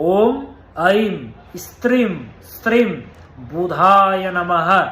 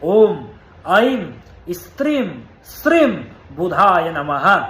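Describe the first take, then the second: No difference in how they are said.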